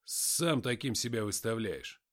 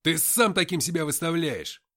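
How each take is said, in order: First: Slow, cool and offhand, сам unstressed; indifferent mutter. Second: Loud hard bark, stress on сам; barked retort. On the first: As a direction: toss сам таким off coldly. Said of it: "безразлично пробормотал я". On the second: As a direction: snap сам таким back at him. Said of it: "рявкнул я в ответ". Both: A narrator's reading.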